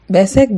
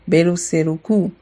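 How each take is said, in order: First: The word ends on a consonant sound. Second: The word ends with an added vowel sound.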